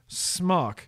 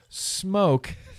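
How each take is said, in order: First: The name is said with a short vowel, like smock. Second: The name is said like the word smoke. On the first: The speaker calls it wrong. "instead of Smok" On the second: The speaker calls it right. "that's why I know how to pronounce it Smoke"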